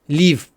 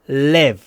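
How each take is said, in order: First: The vowel is close, like 'ee'. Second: The vowel is open, close to 'e'. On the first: The speaker calls it wrong. "Мы не говорим лив" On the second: The speaker calls it right. "Открываем рот, поднимаем кончик языка"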